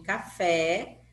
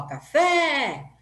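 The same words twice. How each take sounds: First: Said in the usual way. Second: FÉ in "café" long, raised and loud; "café" with a held, high final FÉ; stress on FÉ. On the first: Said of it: "ela é chamada de oxítona". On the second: Shown as a demonstration. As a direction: call out "café", stretching the last syllable. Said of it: "fala mais quando a gente chama".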